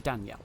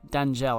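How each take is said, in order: First: The middle consonant sounds like a Y. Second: The middle consonant sounds like a J. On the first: "the J can be the Y sound, so it could be" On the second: "I might be mispronouncing that"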